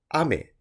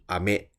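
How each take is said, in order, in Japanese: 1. 「ame」は'rain'と同じ高さです。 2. 「ame」は'candy'と同じ高さです。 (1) "外で雨が降ってるっていう雨" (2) "お菓子の飴"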